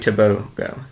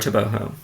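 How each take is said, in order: First: The middle consonant is a hard g sound. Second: The middle consonant is an h sound.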